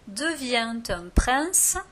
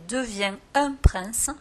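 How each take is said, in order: First: A t sound links devient to un. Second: No t sound links devient to un.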